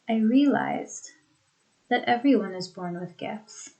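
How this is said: A pause comes right after 'I realized'. "in the first sentence, ... The emphasis is on the realization"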